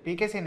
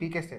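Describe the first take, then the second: First: The word ends without a 't' sound. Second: The word ends with an 'ste' sound. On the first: The speaker calls it wrong. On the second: The speaker calls it right.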